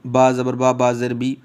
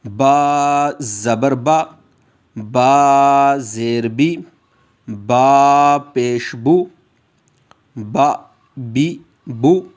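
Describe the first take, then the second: First: बा ज़बर बा said short, not stretched; teacher imitating students who clip the vowels; wrong clipped reading. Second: Very slow, drawn-out lesson chant; teacher chanting the letters slowly for the class; slow drill recitation. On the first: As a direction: rush through बा and बी too briefly. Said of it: "कुछ लोग जो हैं जब इस तरह की तख्ती पढ़ते हैं". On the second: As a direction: stretch बा, बी, बू for students to echo. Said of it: "आप मेरे साथ दोहराएंगे". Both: Shown as a demonstration.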